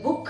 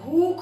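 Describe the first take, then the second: First: The vowel is said short and quick. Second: The vowel is said long and slow. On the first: The speaker calls it wrong. "भूख नहीं बोलते हैं" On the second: The speaker calls it right. "आराम से बोलते हैं"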